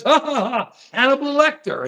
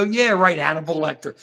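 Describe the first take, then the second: First: Mock laughter, pitched higher; put-on "ha ha" carried into the name; imitated crowd laugh. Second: Mock unimpressed agreement; mildly sarcastic, pitch sinking away; dismissive mimicry. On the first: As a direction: imitate an amused crowd cackling along. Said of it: "Everybody goes". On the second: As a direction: imitate a skeptic brushing it off. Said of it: "And we go".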